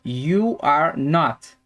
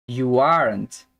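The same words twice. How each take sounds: First: Slow "you are not" as three separate words; full negative form. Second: Slow "You aren't", "not" reduced to n't; contracted negative. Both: Shown as a demonstration. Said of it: "eu já tenho a forma contraída".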